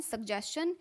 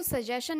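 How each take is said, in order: First: "सजेशन" said sug-JES-chun; hard g before j, "chun" ending in "सजेशन"; correct pronunciation. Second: "सजेशन" said suh-JAY-shun; plain "shun" ending on "सजेशन", no g or t; wrong pronunciation. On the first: Teacher corrects learners, "सजेशन" as sug-JES-chun. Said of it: "इसको बोलते हैं सजेशन". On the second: Teacher shows learners the error, "सजेशन" as suh-JAY-shun. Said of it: "इसको सजेशन नहीं बोलते हैं". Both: Shown as a demonstration.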